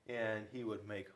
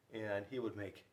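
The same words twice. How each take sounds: The two takes are said the same way.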